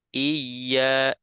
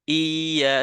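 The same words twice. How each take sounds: First: The doubled y is held gently and naturally. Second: The opening vowel is drawn out, no doubled y. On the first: The speaker calls it right. "natural. Iya, iya seperti itu" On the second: The speaker calls it wrong. "seperti memanjangkan hamzah"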